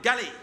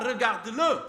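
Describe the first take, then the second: First: The phrase is squeezed into two short syllables. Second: The phrase is said in full, all syllables. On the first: "il va dire galé" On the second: "ne dira pas regarde-le, c'est très long"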